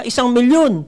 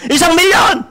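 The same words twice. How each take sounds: First: Said in the usual way. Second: Loud, higher, hyped announcement of one million; shouting big numbers to rehearse; practice announcement shout. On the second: Pretend. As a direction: belt it like a stage host practicing at home. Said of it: "Teka, mag-practice ako dito".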